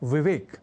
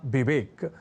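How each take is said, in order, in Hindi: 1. यह शब्द v ध्वनि से शुरू होता है। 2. यह शब्द b ध्वनि से शुरू होता है। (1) "जैसे कहना और लिखना हो विवेक" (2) "लोग कह जाया करते हैं विवेक"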